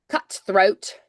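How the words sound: The middle T is crisp and dental. "cutthroat for Scottish could be more like cutthroat, more like a t- crisp T"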